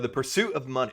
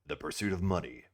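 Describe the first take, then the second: First: It is said in an ordinary speaking voice. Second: It is said in a dramatic movie-trailer voice.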